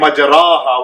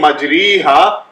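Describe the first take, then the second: First: The vowel after the r is an a sound. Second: The vowel after the r is an i sound. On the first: "or instead of saying majraha" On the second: "instead of saying majriha"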